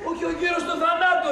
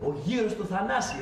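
First: Correcting a friend who misheard, stressing θανάτου; stress on correction. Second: Said in the usual way. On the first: Real, not acted.

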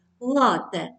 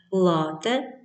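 First: Лате with stress on the last syllable, латЕ; лате, stress on the end; correct stress. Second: Said in the usual way. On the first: Shown as a demonstration. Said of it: "правильно наголос — лате". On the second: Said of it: "Запам'ятайте, правильно наголос".

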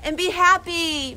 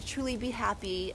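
First: High, tearful and louder; tearful farewell; holding back tears. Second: Tearful farewell; holding back tears. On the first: Emphatic farewell wish. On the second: Softer sincere repeat. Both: Real, not acted. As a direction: choke up but push through the words.

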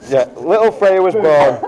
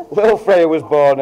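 First: Laughing through the punchline. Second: Said in the usual way. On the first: Real, not acted. Best man laughing as he reveals the birth. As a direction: let a laugh break into it.

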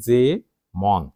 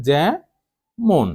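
First: যে with close e, মন with open aw; separated wrong example যে, মন; spelling pronunciation. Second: জ্যা with open ae, মন with rounded o; higher, separated syllables জ্যা, মন; correct pronunciation demo. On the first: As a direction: read যে ... মন as written, "je mawn". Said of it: "সেটি তো আর উচ্চারণ নয়". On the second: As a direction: say জ্যা ... মন as "jae mon". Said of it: "উচ্চারণ হচ্ছে". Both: Shown as a demonstration.

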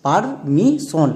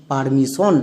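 First: permission very slowly in parts, par... mi... shon; syllable by syllable. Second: Said in the usual way. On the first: Shown as a demonstration. Teacher has pupils read along, permission slowly syllable by syllable. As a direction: sound out permission one stretched syllable at a time. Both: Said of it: "একসঙ্গে উচ্চারণ করো".

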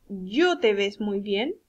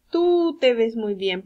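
First: Yo drawn out, slow sentence rising at the end; stress on Yo. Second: Tú loud and stretched; slow model sentence led by a long Tú; stress on Tú. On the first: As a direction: pose it slowly as a doubtful option, stressing Yo. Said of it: "¿Está bien dicho?". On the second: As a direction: state the correction firmly, punching Tú. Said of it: "Se dice". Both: Shown as a demonstration.

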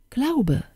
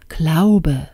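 First: Fairy's answer. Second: Pondering king. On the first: Fairy telling the king the prince's name, high reply. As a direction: give the name lightly, pitched up and falling. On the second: King mulling over the prince's name, pondering. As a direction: repeat the name to yourself, falling. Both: Acted.

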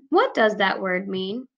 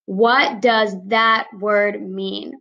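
First: Said in the usual way. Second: Slow, deliberate model sentence; slow example sentence. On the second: Shown as a demonstration. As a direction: read it slowly for the children. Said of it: "My sentence example".

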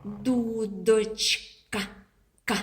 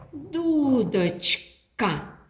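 First: «Дудочка» stretched slowly, then a lone «К»; sound isolated. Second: Said in the usual way. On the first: Shown as a demonstration. (повільно: «Дудочка», потім «К») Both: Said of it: "Давайте виділимо звук".

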